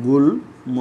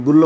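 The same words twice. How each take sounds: First: গুল্ম broken into "gul... mo"; ম pronounced. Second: গুল্ম said loudly as "gullo", no m; ম dropped. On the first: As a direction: pause after "gul", then a clear "mo" in গুল্ম. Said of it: "তাহলে উচ্চারণটা হবে". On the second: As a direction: double the l and lose the m in গুল্ম. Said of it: "এটা কি গুল্ম বলো". (গুল্ম-কে "গুল্ল" উচ্চারণ) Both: Shown as a demonstration.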